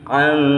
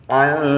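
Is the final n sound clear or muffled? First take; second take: muffled; muffled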